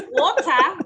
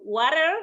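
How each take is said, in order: First: "water" British-style, with clear T and open "ah" ending; loud demonstrated British "water", ending "tah"; British pronunciation. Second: "water" American-style, ending in an R; loud American "water" with R-coloured ending; American pronunciation. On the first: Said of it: "I can understand also British accent". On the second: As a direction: say "water" the American way, loudly, with an R at the end. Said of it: "as you said, for example". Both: Shown as a demonstration.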